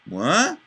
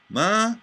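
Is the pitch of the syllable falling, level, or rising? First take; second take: rising; level. First: The pitch rises through the syllable. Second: The pitch stays flat through the syllable. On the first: "I had an inflection up" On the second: "a monotone inflection"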